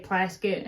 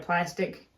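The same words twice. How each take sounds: First: "plasket", with the K moved before the ending; grandparents' pronunciation. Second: Said in the usual way. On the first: Retold or imitated. Showing how the grandparents said "plasket", sounds swapped. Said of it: "they would say plasket". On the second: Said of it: "instead of plastic".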